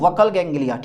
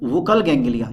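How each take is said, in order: First: The first vowel of buccal sounds like 'uh'. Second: The first vowel of buccal sounds like 'oo'. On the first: "या इसको आप बोल सकते हो वकल ganglia" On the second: "वुकल बोल दो"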